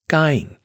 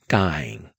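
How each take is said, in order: First: The vowel is long with high pitch. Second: The vowel is long and level. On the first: "And high tone" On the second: "long vowel"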